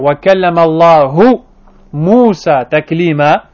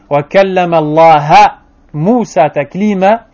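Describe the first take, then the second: First: The word Allah ends with a 'u' vowel. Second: The word Allah ends with an 'a' vowel. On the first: Allah spoke to Moses. The speaker calls it right. "au lieu de dire" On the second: Moses spoke to Allah. The speaker calls it wrong. "ils ont juste changé une voyelle"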